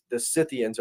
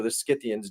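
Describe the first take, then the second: First: Scythians said with a silent c, "SITH-ee-uns"; soft-c pronunciation. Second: Scythians said with a k, "SKITH-ee-uns"; hard-c pronunciation. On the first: Offering listeners one way to say an ancient name, Scythians as "Sithians". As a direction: say Scythians starting with a plain s sound. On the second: Offering listeners the other way to say an ancient name, Scythians as "Skithians". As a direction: say Scythians starting with an sk sound. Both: Shown as a demonstration. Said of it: "depending on how you wanna say it".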